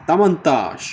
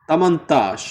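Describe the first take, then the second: Both takes have the same delivery.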